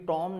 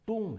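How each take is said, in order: First: The vowel is an open 'aw' sound. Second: The vowel is a long 'oo' sound. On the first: The speaker calls it wrong. "But ये टॉम नहीं है" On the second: The speaker calls it right. "ये टूम है"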